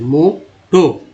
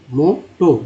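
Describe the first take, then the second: First: मोटो stretched very slowly, both vowels as long O; spelled-out word said very slowly; slow drawn demo. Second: मोटो said at normal pace, both vowels O; just say मोटो normally; quick model word after slow take; normal-speed demo. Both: Shown as a demonstration. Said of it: "दोनों को ओ ही पढ़ेंगे".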